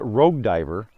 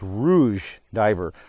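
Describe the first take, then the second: First: The first word sounds like 'rogue', with a hard g. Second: The first word sounds like 'roozh', with a soft zh. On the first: The speaker calls it wrong. "I had been mispronouncing this for years. I called it Rogue Diver" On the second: The speaker calls it right. "So it's Rouge Diver"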